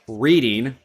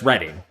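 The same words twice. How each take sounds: First: The name sounds like the ordinary verb. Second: The name is said the local way. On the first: The speaker calls it wrong. "People would say reading" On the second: The speaker calls it right. "but it's Reading"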